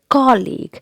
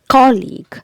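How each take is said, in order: First: The stress is on the first syllable. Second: The stress is on the first syllable.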